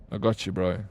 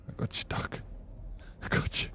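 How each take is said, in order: First: Said in the usual way. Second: Whispered repeat of the line. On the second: Shown as a demonstration. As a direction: breathe it out as a secret.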